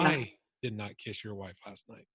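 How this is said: The stress falls on the word "I". "the tone on the word I"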